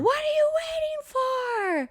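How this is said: The line is yelled loudly. "her yelling"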